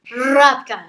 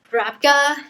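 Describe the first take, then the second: First: Rabka said loud with a drawn-out opening R; relished pronunciation. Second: Said in the usual way. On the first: Shown as a demonstration. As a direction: lean hard on the R that starts Rabka. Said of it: "I wanted to do that".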